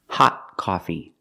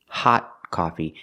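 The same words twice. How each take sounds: First: The T in 'hot' is a stopped T. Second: The T in 'hot' is a stopped T.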